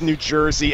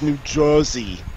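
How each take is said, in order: First: It is said in a plain standard accent. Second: It is said in a New York accent.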